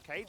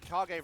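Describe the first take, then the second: First: It is said as one syllable, like cage. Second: It is said as two syllables, ka-ge. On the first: It is read as an ordinary English word. "they believe it's pronounced Cage" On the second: It refers to the Naruto title. "I thought this was a Naruto reference"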